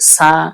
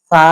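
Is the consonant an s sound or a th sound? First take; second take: s; th. First: The consonant is a plain hissing s sound. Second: The consonant is a th sound, tongue between teeth. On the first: The speaker calls it wrong. "আমি আপনি উচ্চারণ করি সা... এটা ভুল" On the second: The speaker calls it right. "সহি হবে হলো সা"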